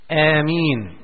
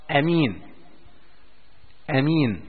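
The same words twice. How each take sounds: First: آمين with a long first a, like ياسين; آمين said aa-meen, long a and long i; long aameen. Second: آمين with a short first vowel, amin; آمين said quickly as amin. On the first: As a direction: stretch the opening vowel of آمين. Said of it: "أن نقول آمين على وزن ياسين". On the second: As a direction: clip the opening a of آمين, no lengthening. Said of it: "هكذا بالقصر بدون مد". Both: Shown as a demonstration.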